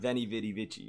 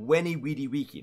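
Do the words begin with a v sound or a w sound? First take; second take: v sound; w sound. First: Each word begins with a v sound. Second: Each word begins with a w sound. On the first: This is the ecclesiastical medieval pronunciation. The speaker calls it wrong. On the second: This is the classical Latin pronunciation. The speaker calls it right. "in classical Latin, the V always has a W sound"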